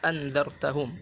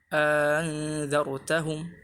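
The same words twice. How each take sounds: First: Both glottal stops are pronounced fully. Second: A long vowel precedes the softened second stop. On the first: "bisa dibaca dengan tahqiq dua hamzah" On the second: "dimasukkan alif di antara uh, hamzah yang ditashilkan"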